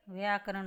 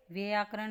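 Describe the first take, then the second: First: व्याकरण said as vaiyaakaran; ai vowel. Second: व्याकरण said as veyaakaran; wrong e vowel. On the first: Teacher gives the correction, व्याकरण starting vai. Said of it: "होता है". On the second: Teacher shows the mistake, व्याकरण starting ve. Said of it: "नहीं होता". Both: Shown as a demonstration.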